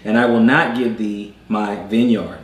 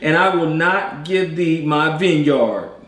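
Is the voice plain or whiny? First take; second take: plain; whiny. First: It is read in a plain voice. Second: It is read in a whiny voice.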